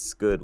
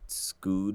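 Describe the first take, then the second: First: The first word sounds like 'scud'. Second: The first word sounds like 'scooed'. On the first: The speaker calls it right. "It's it's "scud" with it" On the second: The speaker calls it wrong. "A lot of people pronounce it "scooed" with it, but it's it's never been"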